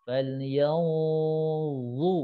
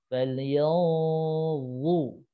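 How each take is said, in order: Both takes have the same delivery.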